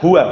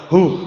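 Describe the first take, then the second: First: The word is said in full with two syllables. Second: The word is cut short to one syllable.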